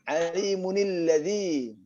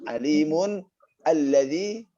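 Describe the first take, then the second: First: The nun runs straight into the next word. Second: The words are said separately with the nun ending. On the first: "kalau disambung" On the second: "intonasi yang biasa"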